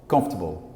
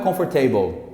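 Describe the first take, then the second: First: The stress falls on the first syllable. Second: The stress falls on a later syllable. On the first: The speaker calls it right. "O estresse dessa palavra está aqui" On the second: The speaker calls it wrong. "não é comfortable"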